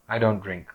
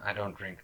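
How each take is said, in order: First: It is said in a firm, confident way. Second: It is said in a timid, hesitant way. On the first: The speaker stands firmly behind the refusal. The speaker calls it right. "I look you in the eye. I don't care who the hell you are" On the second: The speaker is not confident in the refusal. The speaker calls it wrong. "That's submissive"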